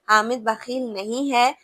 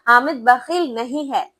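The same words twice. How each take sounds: First: It is said plainly, without extra force. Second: It is said loudly, with strong force.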